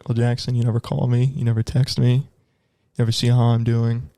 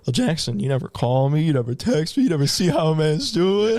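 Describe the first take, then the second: First: It is said in a serious, hurt tone. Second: It is said in a joking, lighthearted tone.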